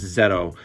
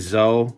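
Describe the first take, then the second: First: The name is said with a t sound. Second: The name is said without a t sound. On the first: This is how the name is said in Japan. "I believe in Japan it's Zeto" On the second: This sounds cooler and edgier. "I like to say Zoe"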